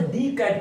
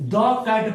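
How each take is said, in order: First: 'The' is said with a long 'thee' vowel. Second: 'The' is said with a short 'thuh' vowel. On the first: The speaker calls it wrong. "अगर दी cat पढ़ेंगे तो क्या हो जाएगा? गलत हो जाएगा।" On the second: The speaker calls it right. "इसे हम लोग द कैट पढ़ेंगे"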